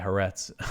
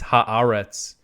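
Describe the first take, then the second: First: The name is said in a simpler, easier form. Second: The name is said in its careful, full form. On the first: "it's just so much easier for me to say Haaretz" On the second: "the proper pronunciation is ha, it's Haaretz"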